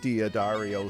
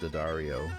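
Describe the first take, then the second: First: An extra syllable is sounded after the first D. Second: No extra syllable is sounded after the first D. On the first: The speaker calls it wrong. "people say" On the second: The speaker calls it right. "you don't pronounce the apostrophe"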